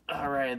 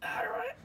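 First: Said in the usual way. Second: High-pitched rising all right; squeaky high. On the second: Real, not acted. Squeaky exclaim as unit drops.

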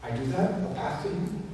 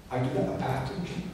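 First: Said in the usual way. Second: Whispered echo of "I do that, a path to Him". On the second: Acted. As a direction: drop to a whisper on the repeat, "I do that" breathed. Repeats phrase, second take whispered.

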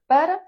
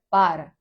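First: Para said as «пера»; reduced first vowel. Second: Para said as «пара»; open first A. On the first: Teacher contrasting two words for learners, «пера» with closed first vowel. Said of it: "Одне як". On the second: Teacher contrasting two words for learners, «пара» with open A. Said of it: "інше як". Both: Shown as a demonstration.

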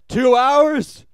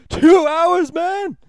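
First: Big shouted question, much higher and louder; retold shout. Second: Loud high yell, dragging out man; shouted again. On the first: Jason Schwartzman's character shouting out at the end. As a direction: bellow it in disbelief. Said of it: "Jason Schwartzman shouts twice". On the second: Retold or imitated. Character repeating his shout at the end of the film. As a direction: shout it a second time, even higher. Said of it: "He s-, says this twice".

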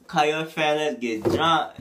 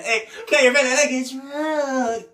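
First: Said in the usual way. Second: High, slow sung hook; sung, stretch it out like the record; sung lyric, far higher and drawn out; singing the hook. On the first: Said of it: "quoting the hook". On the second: Pretend. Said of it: "singing the hook".

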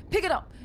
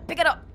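First: High urgent command; being chased. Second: High urgent yell; being chased. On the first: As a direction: bark it again. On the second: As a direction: shout the order urgently. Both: Real, not acted.

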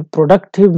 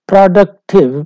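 First: Said in the usual way. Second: productive said louder and higher, the second syllable ड stressed. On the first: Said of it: "जो stress shift है". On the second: Shown as a demonstration. Teacher demonstrating the stress shift in productive for the class, emphatic stress on the second syllable. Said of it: "तो ये ड पे stress आता है".

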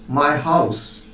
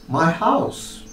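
First: "My" stressed, "house" falling away; first-word stress on "My". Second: "house" stressed, rising at the end; last-word stress on "house" with a rising tune. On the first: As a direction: lean on "My" in "My house". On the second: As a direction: lean on "house" in "my house". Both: Shown as a demonstration. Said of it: "this is about the stress pattern".

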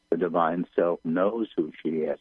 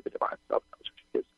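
First: Said in the usual way. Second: Rapid, soft whisper; whispered channeling. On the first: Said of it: "and repeating them". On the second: Real, not acted. Medium relaying guides on divine self, whispered. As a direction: rush it out under the breath. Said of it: "I'm whispering the words".

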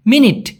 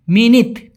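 First: Said in the usual way. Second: "মিনিট" ending on a soft dental t, as minit; soft Malay T. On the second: Shown as a demonstration. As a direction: finish "মিনিট" with tongue on the teeth, like ত. ("মিনিট" শেষে ট নয়, নরম ত উচ্চারণ) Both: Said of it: "ট শব্দটাকে ওরা উচ্চারণ করে সবসময় ত".

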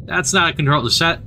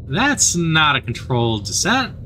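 First: Said in the usual way. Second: Slower, weighty delivery of "That's not a controlled descent"; slow ominous repeat. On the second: Acted. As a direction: let each word land with dread. Slow dramatic repeat of line.

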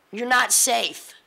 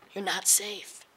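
First: Each word of You're not safe. slowed and pushed out loud; slow, forceful you're not safe. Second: Said in the usual way. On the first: Real, not acted. Warning the college crowd, You're not safe. slow and loud. Final hammered repeat of warning.

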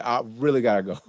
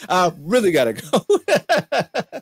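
First: Said in the usual way. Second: Slow, high, drawn-out "I really gotta go"; hammed-up excuse. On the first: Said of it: "then I can really be like". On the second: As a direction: stretch the "go" out as a mock whine. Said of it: "laughs, repeats in put-on voice".

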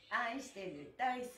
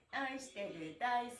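The two takes are said the same way.

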